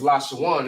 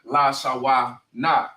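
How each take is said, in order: First: The last two syllables merge into one, 'wan'. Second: The ending is split into separate 'wa' and 'na'. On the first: The speaker calls it right. "It's la shawan" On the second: The speaker calls it wrong. "it's not la shawa na"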